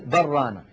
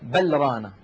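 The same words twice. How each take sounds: First: The L is merged into the following R. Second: The L is clearly pronounced before the R. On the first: The speaker calls it right. "تقول بل رانا" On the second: The speaker calls it wrong. "العرب لا تقول بل رانا هكذا مظهرة"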